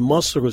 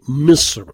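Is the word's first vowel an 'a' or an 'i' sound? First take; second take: a; i. First: The first vowel is an open 'a' sound. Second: The first vowel is a close 'i' sound. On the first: It is the local Egyptian form and often means the capital city. "lorsqu'on dit Masr, c'est le Caire" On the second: "il va prononcer Misr"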